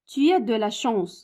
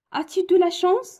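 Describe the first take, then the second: First: Said in the usual way. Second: "As-tu de la chance" climbing to a clear high rise on "chance"; question tune. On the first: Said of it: "لا فراز كتسالي بنقطة". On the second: Shown as a demonstration. Teacher modelling a yes-no question for pupils, rising tune. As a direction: ask "As-tu de la chance?" with a lifted questioning end. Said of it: "هادي فراز انتيروغاتيف".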